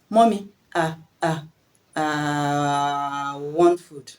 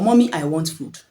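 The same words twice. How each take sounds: First: Stammering on "ah", then a long drawn-out "ah" before "I want food"; stuck on "ah, ah, aaah" until the words come out; child's stammer. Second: Said in the usual way. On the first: Shown as a demonstration. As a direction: imitate a stammering child blocked on "I". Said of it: "He will now say". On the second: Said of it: "Your child will now say".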